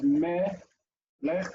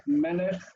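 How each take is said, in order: First: "me, lech" in two separate pieces; syllable by syllable. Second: Said in the usual way. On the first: Shown as a demonstration. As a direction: break it apart, pausing between "me" and "lech". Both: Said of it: "dividing words into syllables".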